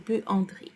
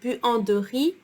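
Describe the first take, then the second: First: The middle vowel is nearly dropped. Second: The middle vowel is fully pronounced. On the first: "I almost skip the E between the G and the R" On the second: "Instead of"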